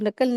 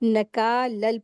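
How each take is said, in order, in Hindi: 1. k के बाद का स्वर छोटा है। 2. k के बाद का स्वर खींचकर लंबा किया गया है। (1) "अक्सर लोग गलती करते नकल पढ़ते हैं" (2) "नकालल पढ़ेंगे क्योंकि काफ के साथ अलिफ मद्द का रूल अप्लाई होगा"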